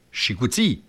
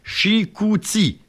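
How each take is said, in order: First: Said in the usual way. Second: Drawn out, syllable by syllable; slow syllable-by-syllable. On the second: Shown as a demonstration. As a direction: stretch the word Chicouti slowly. (Chicouti étiré lentement, syllabe par syllabe) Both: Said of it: "la troisième syllabe de Chicoutimi".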